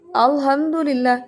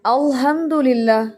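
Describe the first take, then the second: First: अल्हम्दुलिल्लाह with a thin light L; light lam. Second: अल्हम्दुलिल्लाह with a thick heavy L; wrong heavy lam. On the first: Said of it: "इसमें जलाला नहीं है". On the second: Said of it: "ऐसे पढ़ देते हैं". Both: Shown as a demonstration.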